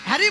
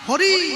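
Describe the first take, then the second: First: It is said like the English name Harry. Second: It is said with Bengali vowels, as Hori. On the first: The speaker is mocking the name. The speaker calls it wrong. "হ্যারি নয়" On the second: The name is said properly. The speaker calls it right. "হ্যারি নয় হরি"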